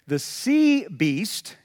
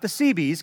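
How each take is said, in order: First: Each word is pronounced clearly and separately. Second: The words run together, sounding like one word. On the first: It means the beast from the sea. The speaker calls it right. "I have to enunciate when I say that" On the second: It sounds like the name of a navy unit. The speaker calls it wrong. "because that's Navy guys that did really good work in the Navy"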